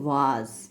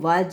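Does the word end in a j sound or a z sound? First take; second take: z sound; j sound. First: The word ends in a buzzing z sound. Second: The word ends in a j sound, as in jam. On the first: The speaker calls it right. "इसको हम बोलेंगे वाज" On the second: The speaker calls it wrong. "इसको हम वाज नहीं बोलेंगे"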